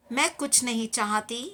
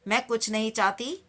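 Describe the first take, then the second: No difference in how they are said.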